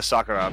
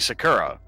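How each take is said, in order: First: The name is said with a Japanese pronunciation. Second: The name is said with an English pronunciation. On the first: "that that's what her name is" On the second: "that's how they say it in the dub"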